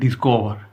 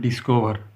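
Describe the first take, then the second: First: The final r sound is dropped. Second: The final r sound is pronounced. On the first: This is how the English say it. "ওরা কী বলবে? ... ইংরেজি জাতি আর এর উচ্চারণ করে না" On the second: This is how local speakers usually say it. "আমরা সাধারণত বলি ডিসকভার"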